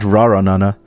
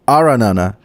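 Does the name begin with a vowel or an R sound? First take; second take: R sound; vowel. First: The name begins with an R sound. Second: The name begins with a vowel sound. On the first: The speaker calls it wrong. "Not Raranana" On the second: The speaker calls it right. "Oh, Aranana"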